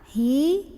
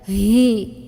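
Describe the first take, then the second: First: It is a plain, heavy throat sound without force. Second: It is forcefully pushed out from the chest. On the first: The speaker calls it right. "Suaranya berat, bergetar tenggorokan bawah kita" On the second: The speaker calls it wrong. "sampai didorong dari dada. Hi, tidak ya"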